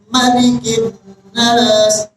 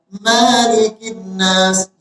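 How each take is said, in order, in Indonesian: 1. Vokal pertama dalam Malikin dibaca pendek. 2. Vokal pertama dalam Malikin dibaca panjang. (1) "Tapi kalau dibaca pendek" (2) "kalau Malikin Nas dibaca panjang"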